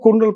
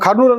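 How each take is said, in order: First: The first syllable is said as 'kur'. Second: The first syllable is said as 'kar'. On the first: This is how the British said it. "British వాళ్ళు కుర్నూలు కుర్నూలు పలికారు" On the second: This is the local way of saying it. "మనము కర్నూలు అని పలుకుతాం"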